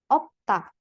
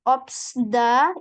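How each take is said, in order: First: No s sound; the ending is ta. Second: An s sound is heard before da. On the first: The speaker calls it right. "yang benar cara bacanya adalah opta" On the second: The speaker calls it wrong. "opsda itu salah"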